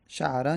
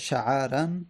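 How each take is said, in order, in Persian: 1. صدای عین بعدش مصوت نداره. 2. بعد از صدای عین یه فتحه کوتاه میاد. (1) "عین ساکن بشه" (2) "یا فتحه داده بشه"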